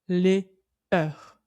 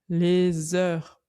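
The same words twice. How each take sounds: First: The two words are kept separate, without liaison. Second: The s is linked onto the next word. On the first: The speaker calls it wrong. "On ne dit pas les heures" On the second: The speaker calls it right. "On fait bien la liaison"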